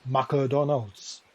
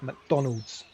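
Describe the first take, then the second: First: Put-on McDonald's in a Japanese accent as Ma-ku-Donaldo, every syllable given equal weight. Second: McDonald's with the Don punched and the rest falling away, said slowly; McDonald's, stressed Don, weak Mc and alds; English stress pattern. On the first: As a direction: imitate a Japanese friend saying McDonald's with no dropped syllables. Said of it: "Japanese friend of mine pronounced it as". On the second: Shown as a demonstration. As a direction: lean hard on the middle syllable of McDonald's. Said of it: "The stress is in the middle".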